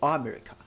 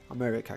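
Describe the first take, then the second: First: The stress is not on the second syllable. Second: The stress is on the second syllable. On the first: The speaker calls it wrong. "you're not gonna say America or America" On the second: The speaker calls it right. "with the stress on man, you just you're gonna say it longer, a bit higher, a little bit stronger"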